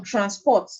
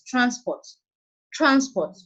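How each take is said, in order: First: TransPORT, stress on the second syllable; light "trans", stressed "port" in "transport". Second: TRANsport, stress on the first syllable. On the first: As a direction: say "transport" as a verb, leaning on "port". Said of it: "stress is now shifting from the first syllable". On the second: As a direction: say "transport" as a noun, punching "trans". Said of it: "stress has been placed on the first syllable". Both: Shown as a demonstration.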